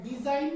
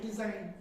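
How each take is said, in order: First: डिजाइन said the mistaken way, "di-jain"; wrong pronunciation. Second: डिजाइन lower, as "di-zain", silent G; correct pronunciation. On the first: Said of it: "नहीं होता है". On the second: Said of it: "नहीं होता है डिजाइन". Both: Shown as a demonstration.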